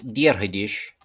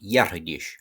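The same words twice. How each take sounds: First: "Diarhadish" starting with a clear D. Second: "Yarhadish" with the D softened to a Y glide. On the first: Teacher gives the school form with a D. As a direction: say "Diarhadish" with a plain D sound at the start. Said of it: "with a, a D". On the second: Teacher gives the Munster speaker's softened form. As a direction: say "Yarhadish" with a Y sound in place of the D. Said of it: "a less historical shevu on the D". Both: Shown as a demonstration.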